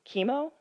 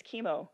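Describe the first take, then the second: First: Chemo? rising high in disbelief; "Chemo?" asked with a high rising question tune; incredulous question. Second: "chemo." with a settled falling tune; "chemo." said flat and falling, accepting it; resigned statement. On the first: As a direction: ask "Chemo?" as if you can't believe it, pitch climbing. Mother reacts to chemo news. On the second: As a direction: let "chemo." drop and close like a verdict. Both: Acted.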